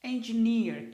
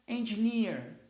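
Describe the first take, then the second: First: Engineer repeated, stress on EN and a strong NEER; English word engineer. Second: Engineer with stress on EN and a strong final NEER; English word engineer. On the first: (repetição de "Engineer" com EN e NEER fortes) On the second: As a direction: model engineer for the class. (pronúncia de "engineer" com tônica em EN e final forte) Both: Shown as a demonstration. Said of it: "as duas primeiras letras maiúscula".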